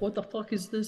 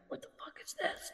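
First: It is said at normal loudness. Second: It is said very quietly.

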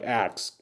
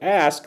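First: It is pronounced 'aks', with k before s. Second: It is pronounced 'ask', with s before k.

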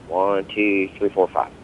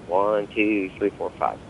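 Both takes have the same delivery.

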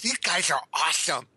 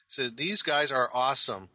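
First: It is said in a put-on nerdy voice. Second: It is said in a natural speaking voice.

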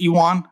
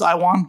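First: The name is said with a French pronunciation. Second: The name is said with an English pronunciation. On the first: The speaker calls it right. "It's Iwwon, the French pronunciation" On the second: The speaker calls it wrong. "I always thought it was Iwwon"

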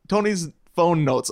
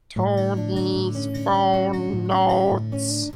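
First: It is said in a normal voice. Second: It is said in an E.T. impression.

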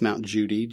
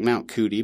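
First: The name begins with a J sound. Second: The name begins with a hard K sound. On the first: The speaker calls it right. "but it's pronounced Mount Judi" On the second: The speaker calls it wrong. "It looks like Mount Cootie"

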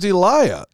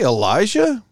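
First: The name has no J sound in the middle. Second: The name has a J sound in the middle. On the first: The speaker calls it right. "My name's Eliah. Because there's no J" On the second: The speaker calls it wrong. "did you say Elijah?"

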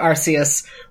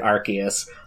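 First: The first syllable sounds like 'arse'. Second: The first syllable does not sound like 'arse'. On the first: "we can't have Arce in a Pokemon's name" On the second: "So they pronounced it Arceus"

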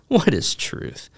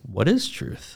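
First: It is asked in a snarky, mocking tone. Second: It is asked in a sincere, curious tone.

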